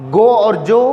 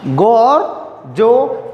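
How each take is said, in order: First: Said in the usual way. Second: गो और जो spaced out very slowly; teacher stretches गो और जो very slowly; very slow demo. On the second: Shown as a demonstration. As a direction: spell out गो and जो slowly for students. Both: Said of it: "जी का दो sound".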